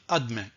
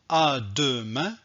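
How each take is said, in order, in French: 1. On supprime le son E du milieu. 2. On prononce le son E du milieu. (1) "on ne prononce pas le E" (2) "je ne vais pas dire à demain"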